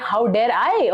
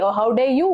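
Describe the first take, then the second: First: Incredulous echo landing on "I"; stress on I. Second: Indignant counter landing on "you"; stress on YOU. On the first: Retelling her retort to the manager, indignant stress on "I". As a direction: throw it back, hitting "I" at the end. Throws his phrase back at him. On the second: Retelling her retort to the manager, rising stress on "you". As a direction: turn it round, lifting "you" at the end. Turns the accusation on him. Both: Retold or imitated.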